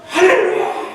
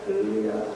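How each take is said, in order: First: It is said loudly with strong energy. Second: It is said weakly and quietly.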